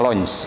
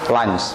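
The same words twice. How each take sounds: First: The vowel sounds like 'oh'. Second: The vowel sounds like 'ah'. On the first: The speaker calls it wrong. "bukannya lunch" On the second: The speaker calls it right. "bukan diucapkan o tapi a"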